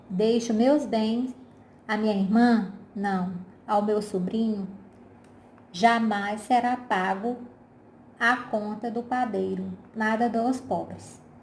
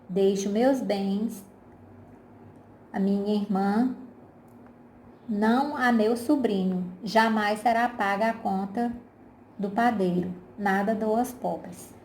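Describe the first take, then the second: First: It breaks after 'irmã' and again after 'não'. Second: 'não a meu sobrinho' runs on without a break.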